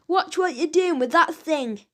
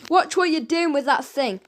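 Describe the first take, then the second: First: Raised, higher shout of disgust; fed-up henchman yelling after a bump. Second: Snapped. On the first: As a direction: bellow it at the man on your face. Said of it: "shouted the henchman". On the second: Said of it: "snapped Fingers". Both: A narrator's reading.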